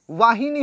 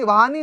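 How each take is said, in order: First: वाहिनी with a clear हि; correct form stressed. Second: वाहनी with no i after ह; wrong form said aloud. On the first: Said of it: "वाहिनी होता है". (सही रूप वाहिनी, हि पर ज़ोर) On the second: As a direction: sound out the incorrect वाहनी. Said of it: "वाहनी नहीं होता है". (गलत रूप वाहनी, बिना इ के) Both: Shown as a demonstration.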